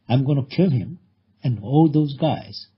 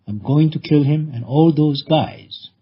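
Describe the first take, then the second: First: The words 'going to' are reduced to 'gonna'. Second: The words 'going to' are said in full.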